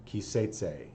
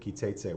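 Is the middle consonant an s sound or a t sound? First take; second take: s sound; t sound. First: The middle consonant is an s sound. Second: The middle consonant is a hard t sound. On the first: "an S sound" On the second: This follows the standard Israeli reading. "a hard T sound"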